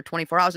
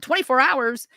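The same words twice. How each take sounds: First: Said in the usual way. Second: Higher-pitched, indignant disbelief; incredulous echo. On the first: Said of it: "And they're like". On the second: Retold or imitated. Mother balking at the police waiting rule, incredulous. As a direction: throw it back in disbelief.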